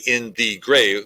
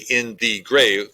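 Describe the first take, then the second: First: All three syllables are said separately. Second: The same.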